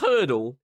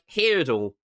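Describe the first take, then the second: First: The first vowel sounds like 'her'. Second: The first vowel sounds like 'here'. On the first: The speaker calls it right. "it was hurdle because it sounds like Wordle" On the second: The speaker calls it wrong. "I thought hurdle was pronounced like hurdle"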